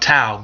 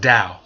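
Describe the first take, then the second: First: The word begins with a T sound. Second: The word begins with a D sound. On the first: The speaker calls it wrong. "A lot of people talking about Tao" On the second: The speaker calls it right. "it's truly pronounced Tao. You pronounce the T as a D"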